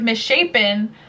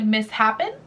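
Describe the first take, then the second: First: Said in the usual way. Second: "mishappen" said as mis-HAPPEN; misread misshapen. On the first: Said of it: "I always said mishappen". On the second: Shown as a demonstration. Owning up to a reading mistake, "mishappen" said as mis-happen. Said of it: "when I read the word misshapen".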